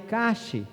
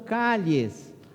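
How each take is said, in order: First: The middle consonant sounds like 'sh'. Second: The middle consonant sounds like 'y'. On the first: This is how it is said in Uruguay. "no Uruguai calle" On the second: This is how it is said in Spain. "lá as ruas são calles"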